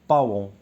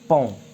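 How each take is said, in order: First: The vowel is split into two sounds, a-on. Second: The vowel is a single nasal sound. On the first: The speaker calls it wrong. "اغلبيه كنا كنطقوه باون" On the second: The speaker calls it right. "كنقولو بون"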